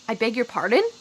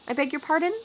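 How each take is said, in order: First: It is said in a rude, indignant tone. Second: It is said in a neutral, polite tone. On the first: The listener is offended by what was said. "this phrase can be extremely rude" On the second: The listener simply did not catch what was said. "very neutrally"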